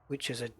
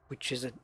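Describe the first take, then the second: The two takes are said the same way.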